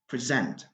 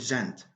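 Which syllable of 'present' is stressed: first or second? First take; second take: second; first. First: The stress is on the second syllable. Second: The stress is on the first syllable. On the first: It is a verb. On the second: It is a noun.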